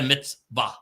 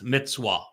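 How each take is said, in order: First: The middle consonant is a V sound. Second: The middle consonant is a W sound. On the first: The speaker calls it wrong. "It's not a mitzvah. There is no V sound" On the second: The speaker calls it right. "It's a wa"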